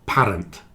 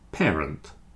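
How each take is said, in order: First: The first syllable sounds like "par". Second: The first syllable sounds like "pair". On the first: The speaker calls it wrong. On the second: The speaker calls it right. "It's more like pair"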